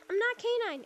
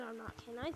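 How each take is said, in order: First: Higher-pitched trolling voice; high mock-innocent troll; K nine. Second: Said in the usual way. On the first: Shown as a demonstration. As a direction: do a troll's pleading denial, pitched up. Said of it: "I can do one of his, like, trolling". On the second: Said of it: "So, like, when he trolls".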